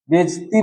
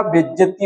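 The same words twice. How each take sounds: First: बेइज्जती shortened to "bejti"; wrong form. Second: बेइज्जती said "bejjati", middle a kept; correct form. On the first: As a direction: drop the middle vowel of बेइज्जती. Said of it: "बेइज्जती नहीं होगा". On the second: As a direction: keep the middle vowel in बेइज्जती. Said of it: "बेइज्जती होगा". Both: Shown as a demonstration.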